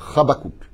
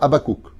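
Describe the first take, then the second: First: The name is said with a Hebrew pronunciation. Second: The name is said with a French pronunciation.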